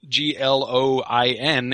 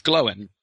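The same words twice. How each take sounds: First: "Gloin" said as one syllable, like groin; the mistaken one-syllable "Gloin"; wrong one-syllable way. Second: "Gloin" split as Glo-in, stress on Glo; "Gloin" carefully as two syllables. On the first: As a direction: clip "Gloin" into a single syllable. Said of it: "is not Gloin". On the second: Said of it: "it's Gloin". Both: Shown as a demonstration.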